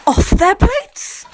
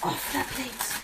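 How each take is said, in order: First: Slow, high, loud stretch; slow high loud drawn-out line. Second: Slow, much softer repeat; slow hushed echo. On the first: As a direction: stretch every word. Stretched phrase. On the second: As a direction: echo it faintly and slowly. Repeated softly. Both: Pretend.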